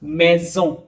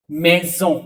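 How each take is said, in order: First: मेजों repeated with a z sound and falling end; French z sound. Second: मेजों, z between vowels; French z sound. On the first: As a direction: say मेजों again, z clear, tune dropping. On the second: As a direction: give मेजों a buzzing z in the middle. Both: Shown as a demonstration. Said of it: "जॉ का sound देगा".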